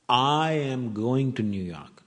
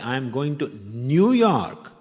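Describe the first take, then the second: First: The word "I" is stressed. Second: The words "New York" are stressed. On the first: The speaker is going, not the listener. "Not you" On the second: The destination is this city, not another. "means I'm not going to Chicago"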